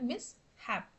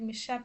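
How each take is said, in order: First: The word is split into mis and hap. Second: The word is said with the sounds joined. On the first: The speaker calls it right. "ഇങ്ങനെ split ചെയ്ത് വേണം pronounce ചെയ്യാനായിട്ട്" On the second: The speaker calls it wrong. "എന്ന് പറഞ്ഞ് pronounce ചെയ്യരുത്"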